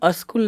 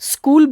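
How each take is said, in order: First: The word begins with an extra vowel before s. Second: The word begins directly with the s sound. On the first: The speaker calls it wrong. "अस्कूल नहीं बोलना है" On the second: The speaker calls it right. "स्कूल बोलना है"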